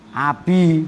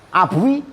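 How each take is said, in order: First: The vowel after the b is i. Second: The vowel after the b is u. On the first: This is the form actually used. "domanya akhirnya diganti kas menjadi a" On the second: This is the original underlying form. "Iya sebelumnya doma"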